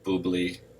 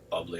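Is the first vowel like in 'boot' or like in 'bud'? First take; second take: boot; bud. First: The first vowel sounds like the 'oo' in 'boot'. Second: The first vowel sounds like the 'u' in 'bud'. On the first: It is a playful, joking way to say the name. "we say boobly to be funny" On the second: It may be the ordinary way to say the name. "It might be bubbly"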